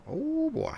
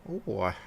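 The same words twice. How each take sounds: First: Put-on squeaky oh boy. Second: Said in the usual way. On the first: Repeats with a squeaky jump.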